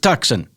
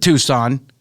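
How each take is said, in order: First: The c is sounded, as spelled. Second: The c is silent, like too-sahn. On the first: The speaker calls it right. "That's how you, you cocksuckers spell it, so just say it that way" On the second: The speaker calls it wrong. "It isn't Tucson"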